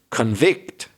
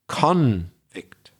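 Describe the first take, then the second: First: The stress is on the second syllable. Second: The stress is on the first syllable. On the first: It means to find someone guilty. "stress on the second syllable, is the verb" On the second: It names a person found guilty. "The stress, the emphasis on the first syllable"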